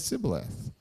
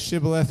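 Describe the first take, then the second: First: The word begins with an s sound. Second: The word begins with an sh sound. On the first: This is how the speaker's own side says it. "I say sibboleth" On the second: This is how the other side says it. "you say shibboleth"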